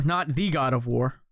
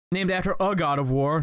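First: "the" leaned on, set against "a"; stress on the. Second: "a" leaned on, set against "the"; stress on a. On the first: Gamer contrasting the lore, stress on "the". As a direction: press on "the", the one true god. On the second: Gamer correcting the lore, stress on "a". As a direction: press on "a", a god not the god. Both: Shown as a demonstration.

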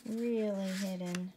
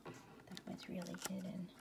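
First: Said in the usual way. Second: Whisper. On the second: Real, not acted. Hushed aside to child.

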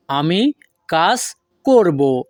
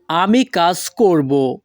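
First: Slow, with gaps between আমি, কাজ and করব; word by word. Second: Said in the usual way. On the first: Shown as a demonstration. Teacher repeats the future sentence for learners, word by word. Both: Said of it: "পরবর্তীতে আছে".

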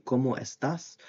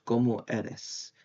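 First: Said in the usual way. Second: "¿Cómo eres?" dito devagar, como o erro; wrong form, slow. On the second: Shown as a demonstration. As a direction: say "¿Cómo eres?" slowly, each syllable drawn out.

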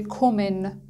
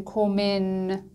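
First: "کومن" with a short first vowel; short vowel pronunciation. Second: "کومن" said with lengthened sound; wrong drawn-out pronunciation. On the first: Teacher gives the correct German word, short-vowel "کومن". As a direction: keep the o in "کومن" short before the double consonant. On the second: Teacher shows German learners what not to say, drawn-out "کومن". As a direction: stretch "کومن" out instead of keeping it short. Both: Shown as a demonstration.

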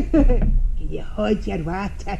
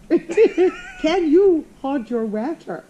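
First: Slow, loud Glaswegian through a laugh; Glaswegian demonstration. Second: Very slow, loud, high mock Glaswegian; mock attempted accent. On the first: Shown as a demonstration. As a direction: show the proper Glasgow accent, drawn out. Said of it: "can you say it for me". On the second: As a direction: laughingly parody a bad Glaswegian accent. Mimics host's failed accent, laughing.

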